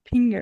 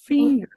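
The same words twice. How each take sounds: First: The word begins with a P sound. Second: The word begins with an F sound. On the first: The speaker calls it wrong. "Ela fala assim" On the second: The speaker calls it right. "mas era para ser finger"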